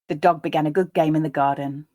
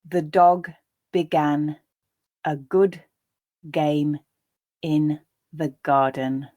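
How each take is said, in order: First: The sentence is read at a natural speed. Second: The sentence is read slowly. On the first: "the second and third time at that more natural pace" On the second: "reading the first time slowly"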